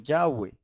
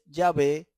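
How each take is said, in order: First: The middle consonant is a w sound. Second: The middle consonant is a v sound. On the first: The speaker calls it right. "sino Yahweh. Y la pronunciación es Yahweh" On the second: The speaker calls it wrong. "no es Yahvé"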